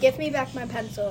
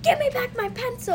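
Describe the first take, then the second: First: It is said calmly and firmly, without anger. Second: It is said aggressively, like an angry outburst. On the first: The request is firm but not escalating. The speaker calls it right. "You're like, ... I need it to write" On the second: The situation is being escalated. The speaker calls it wrong. "But you're also not like, ... And, like, slap them"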